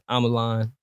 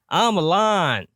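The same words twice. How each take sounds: First: It is said quietly. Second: It is said loudly.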